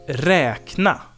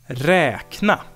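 The two takes are said the same way.

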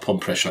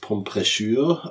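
First: The name is not pronounced the French way. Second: The name is pronounced the French way. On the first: "Oder heißt es vielleicht auch" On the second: "also französisch ausgesprochen"

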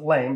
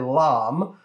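First: The vowel is like in 'game'. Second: The vowel is open, like in 'calm'. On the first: The speaker calls it wrong. "Some people mispronounce it lame, but that's just lame" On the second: The speaker calls it right. "a French device called a"

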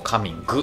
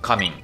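First: The word ends with an added gu sound. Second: The word ends in a plain n sound.

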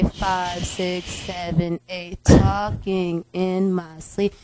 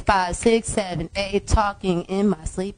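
First: It is counted slowly. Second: It is counted fast.

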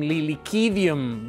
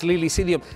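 First: The word is pronounced with Latin sounds. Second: The word is pronounced with anglicized sounds. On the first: "Maybe I have to pronounce it in Latin" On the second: "but in my reading of it"

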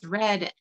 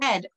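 First: The word begins with a clear R sound. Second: The word begins with a W sound. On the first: "a word such as" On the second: "mispronounce the letter R with a W sound"

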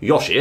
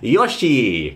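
First: The final vowel is short and clipped. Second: The final vowel is long and drawn out. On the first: The speaker calls it wrong. "So instead of being Yoshi" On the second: The speaker calls it right. "You have to drag the E out"

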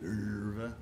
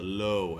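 First: It is said in two syllables, like 'ler-va'. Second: It is said in one syllable, rhyming with 'low'. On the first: "Is that how you say it?" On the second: "as we Americans call it"

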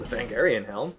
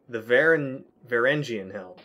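First: The first word starts with a 'vang' sound. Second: The first word starts with a 'var' sound. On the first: The speaker calls it wrong. "I didn't even pronounce that right" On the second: The speaker calls it right. "Close enough"

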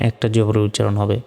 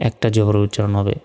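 No difference in how they are said.

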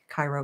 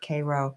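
First: It is said like the Egyptian city's name. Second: It is said the local New York way. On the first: It names the city in Egypt. "like Cairo, Egypt" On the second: It names the town in New York. "but they pronounced it Cairo"

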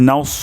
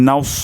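The two takes are said the same way.

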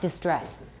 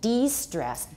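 First: The word begins with a short 'dih' sound. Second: The word begins with a long 'dee' sound. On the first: It means suffering or worry. The speaker calls it wrong. "because a lot of you say distress, 不是distress" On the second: It means taking the stress off. The speaker calls it right. "de-stress, D-E-S-T-R-E-S-S"

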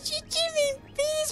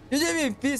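First: It imitates a very thin, high girl's voice. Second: It imitates Nessa's voice, less thin.

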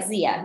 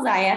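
First: The name does not rhyme with papaya. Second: The name rhymes with papaya. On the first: The speaker calls it wrong. "nobody could pronounce Zaya" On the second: The speaker calls it right. "It's Zaya and it rhymes with papaya"

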